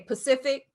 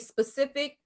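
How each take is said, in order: First: The word begins with a p sound. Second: The word begins with an s sound. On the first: The speaker calls it wrong. "they say Pacific" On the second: The speaker calls it right. "they can't say specific"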